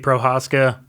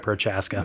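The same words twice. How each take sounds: First: The name is pronounced the original Czech way. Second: The name is pronounced the Americanized way. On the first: This is the original form of the name. "is supposed to be Prochaska" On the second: This is the form the family uses day to day. "we've Americanized it. ... I go by Prochaska"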